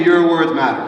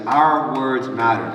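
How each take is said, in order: First: Said in the usual way. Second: "Our words matter" said slowly, each word weighted; slow emphatic. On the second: Shown as a demonstration. Teacher stresses the lesson's key line, slow and emphatic. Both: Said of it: "Everyone say".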